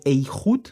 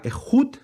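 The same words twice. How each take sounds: First: "Eihud" opening on an ei diphthong; alternative pronunciation demo. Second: "Ejud" with a throaty j and high stressed oo; Hebrew word demo. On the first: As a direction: glide ei into a throaty h on "Eihud". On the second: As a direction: lift the last syllable of "Ejud" sharply higher. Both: Shown as a demonstration. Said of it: "o Eihud".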